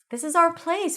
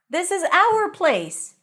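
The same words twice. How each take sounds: First: 'Our' is reduced to a short 'ar' sound. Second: 'Our' is stressed and fully pronounced. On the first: "this is how you pronounce it when it's unstressed" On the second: "If it's stressed, it's going to be pronounced as our"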